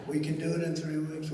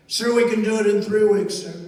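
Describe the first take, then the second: First: Said in the usual way. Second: Loud crisp soldier's reply; loud military answer. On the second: Retold or imitated. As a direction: bark it out like a general reporting. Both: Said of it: "say it one more time".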